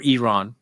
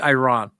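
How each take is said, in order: First: Iran starting with an "ee" sound; Iran as ee-RAHN. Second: Iran starting with a long "eye"; Iran as eye-RAHN. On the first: Interviewer offering the guest's version, Iran said ee-RAHN. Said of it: "You say Iran". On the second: Interviewer offering a word to the guest, Iran said eye-RAHN. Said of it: "I say Iran". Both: Shown as a demonstration.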